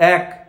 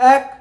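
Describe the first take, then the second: First: The word is voiced at a middle throat level. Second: The word is voiced high, resonating in the head. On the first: "গলা থেকে বলছি" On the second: "মাথা থেকে বলছি"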